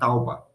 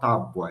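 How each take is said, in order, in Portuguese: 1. O som u vem antes do b. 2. O som u vem depois do b. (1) "ele falava tauba" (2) "ele não falava tábua"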